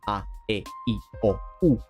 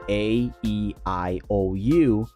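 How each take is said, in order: First: The vowels are said short, crisp and sharp. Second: The vowels are said with English vowel sounds. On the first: "in Spanish is A E I O U. ... a little bit more final, a little bit more sharp" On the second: "not say some of the vowels the same way that that we do in Spanish"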